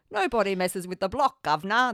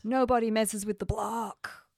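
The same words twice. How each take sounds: First: Hammed-up fake Cockney; louder, badly faked British accent. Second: Put-on American accent. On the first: Host showing co-host their attempt at British, in a terrible fake accent. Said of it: "I can't do a British accent". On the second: Film podcaster quoting the block's motto in an accidental American accent. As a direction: say it like an American tough. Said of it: "put an American accent on then".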